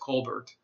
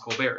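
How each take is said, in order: First: The name ends with a clear t sound. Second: The name ends without a t sound. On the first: This is how his real name is said. The speaker calls it right. "his real name" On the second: This is the version made up for the show. The speaker calls it wrong. "they used the French pronunciation with the dropped uh, consonant at the end"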